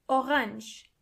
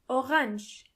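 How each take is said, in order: No difference in how they are said.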